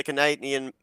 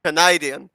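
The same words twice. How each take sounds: First: Word slipping into an Australian accent; accidental Australian accent. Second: Said in the usual way. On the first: Real, not acted. Announcer fumbling the track name, accidental Australian accent. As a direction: say CANADIAN with an unintended Australian vowel. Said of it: "I sounded Australian for a moment there". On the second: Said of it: "Let's do it again".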